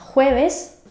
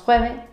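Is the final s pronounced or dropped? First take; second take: pronounced; dropped. First: Standard accent with the final s pronounced. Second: Murcian accent with the final s dropped.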